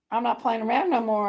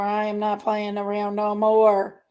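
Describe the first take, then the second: First: Said in the usual way. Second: "I am not" spelled out, slow and low; emphatic, slowed repeat. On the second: Real, not acted. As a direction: draw out "I am not playing around no more" word by word.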